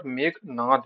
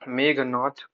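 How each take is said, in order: First: मेघनाद ending in voiced द; corrected pronunciation. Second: मेघनाथ ending in aspirated थ; common mispronunciation. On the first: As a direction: say मेघनाद with final द. (मेघनाद, अंत में द) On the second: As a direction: say मेघनाथ with final थ. (मेघनाथ, अंत में थ) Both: Shown as a demonstration. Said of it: "बोलते हैं, पर मेघनाद".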